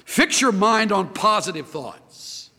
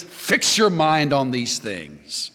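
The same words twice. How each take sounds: First: "your" stressed, slow falling "Fix your mind on positive thoughts"; slow emphatic point. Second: "your" stressed, slow falling "fix your mind on these things"; slow emphatic close. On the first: Preacher states his sermon point to the church, slow and weighted. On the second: Preacher drives the verse home to the congregation, slow stress on "your". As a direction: lean on "your" and slow right down. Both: Shown as a demonstration.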